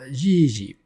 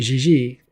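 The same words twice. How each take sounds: First: The first syllable is long, the second short. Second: The second syllable is emphasized and drawn out. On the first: It is a cute, loving word for a grandpa. "normally you're supposed to say the first syllable long and the second syllable short" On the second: It is an insult to an old man. "you actually have to emphasize the second one for it to be appropriately derogatory"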